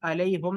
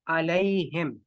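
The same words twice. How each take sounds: First: अलैहुम with a u in the last syllable; wrong vowel. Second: अलैहिम with an i in the last syllable; correct vowel. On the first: Teacher showing what is not recited, अलैहुम with u. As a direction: say अलैहुम ending in "hum". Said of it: "अलैहुम नहीं पढ़ते". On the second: Teacher giving the recited form, अलैहिम with i. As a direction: say अलैहिम ending in "him". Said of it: "यहाँ पर आप अलैहुम नहीं पढ़ते". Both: Shown as a demonstration.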